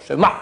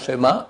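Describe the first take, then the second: First: The final vowel has a throaty ayin sound. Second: The final vowel is a plain open a. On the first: The speaker calls it right. "mais A, avec un Aïn" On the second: The speaker calls it wrong. "ce n'est pas un schéma"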